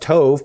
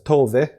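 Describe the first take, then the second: First: The name is read with an English pronunciation. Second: The name is said with a Scandinavian pronunciation. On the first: This is how a reader would guess it from the spelling. "I would have read it as Tove" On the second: This is how native speakers say it. "but you pronounce it as Tove, right?"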